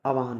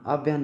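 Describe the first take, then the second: First: आवाहन as "aa-vaa-han"; correct pronunciation. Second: आव्यान with a vy cluster, "aav-yaan"; wrong pronunciation. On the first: Teacher gives the right form, आवाहन as "aa-vaa-han". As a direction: open आवाहन into three syllables. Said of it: "होता". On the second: Teacher shows the mistake, आव्यान as "aav-yaan". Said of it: "नहीं होता". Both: Shown as a demonstration.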